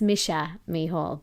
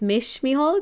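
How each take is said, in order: First: The first word has two syllables, ending in a vowel. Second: The first word has one syllable, ending in 'sh'. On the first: The speaker calls it right. "It's Misha Mihal" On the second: The speaker calls it wrong. "you can't just say it's Mish Mihal. 'Cause that's just gibberish"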